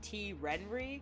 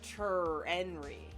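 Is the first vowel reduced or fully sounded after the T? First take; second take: reduced; fully sounded. First: The name starts with a bare T sound. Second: The name starts with a full 'ter' syllable. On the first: "the E with the R" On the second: "the E with the T"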